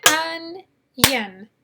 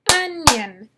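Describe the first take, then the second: First: "onion" as "un", pause, "yun"; split into syllables. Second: Said in the usual way. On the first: Shown as a demonstration. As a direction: break "onion" in two separated beats. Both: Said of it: "How many syllables in onion?".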